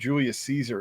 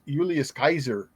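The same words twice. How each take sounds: First: The name is said with ordinary English pronunciation. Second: The name is said with classical Latin pronunciation. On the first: "instead of" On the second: "classical pronunciation"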